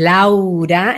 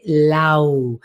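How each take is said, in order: First: "Laura" drawn out in full; broad, open "Laura"; whole, strong name. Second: "Lau" low, held inside; inward-sinking "Lau"; voice going inward. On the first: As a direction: give LAURA its full length and strength. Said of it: "entero daría esta fuerza". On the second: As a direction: pull LAU back and in. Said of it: "va más hacia adentro". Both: Shown as a demonstration.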